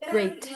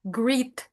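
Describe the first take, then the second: First: The vowel sounds like an 'ay' sound. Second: The vowel sounds like a short 'ee' sound. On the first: The speaker calls it right. "yang benar tuh yang tadi barusan kamu bacain" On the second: The speaker calls it wrong. "Kayak kayak i gitu soundnya"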